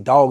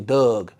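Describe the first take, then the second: First: The word is said with a plain vowel. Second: The word is said with a Baltimore-style vowel. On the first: "if they say dog" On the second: "they say Doug"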